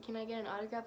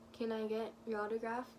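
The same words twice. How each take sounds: First: Said in the usual way. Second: Barely talking. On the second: Retold or imitated. Fan retelling asking Bobby for an autograph, barely talking. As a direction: imitate being almost too starstruck to speak. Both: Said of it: "Like, I didn't even talk".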